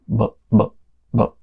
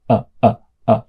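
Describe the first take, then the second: First: The vowel is said with very low energy. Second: The vowel is said with medium energy. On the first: "this one is low energy, so it's super low energy" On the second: "This one is more energy, but not one hundred percent"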